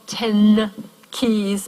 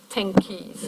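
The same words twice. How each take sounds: First: The n in 'ten' is a plain n sound. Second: The n in 'ten' becomes an ng sound. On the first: "it's not ten keys" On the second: "a velar nasal"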